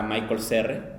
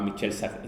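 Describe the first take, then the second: First: The first name sounds like Michael. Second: The first name sounds like Michel. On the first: The speaker calls it wrong. "pensé que se pronunciaba" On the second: The speaker calls it right. "se llamaba"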